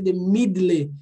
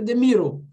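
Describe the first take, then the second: First: "middle" said as "mid-lê"; Portuguese letter reading. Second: "middle" said as "mirou"; English pronunciation. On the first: Teacher ruling out the spelled reading, mispronounced. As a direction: pronounce "middle" as spelled, ending "lê". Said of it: "Não é porque tem esse D D L E". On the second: Teacher giving the correct form, English pronunciation. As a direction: tap the d in "middle" and round the ending. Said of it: "é the middle". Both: Shown as a demonstration.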